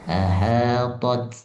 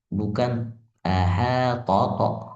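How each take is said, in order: First: The final t ends with a slight hiss. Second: The final t bounces into an added vowel. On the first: The speaker calls it right. "ada bunyi desis aja sedikit" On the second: The speaker calls it wrong.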